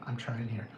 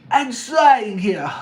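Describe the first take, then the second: First: Said in the usual way. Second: Slow, loud put-on puppet voice; Kermit. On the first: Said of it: "I never said I was good at accents". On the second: Speaker attempting an accent on request, strained puppet impression. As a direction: stretch it out in a bad puppet impression. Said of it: "it's gonna be Kermit".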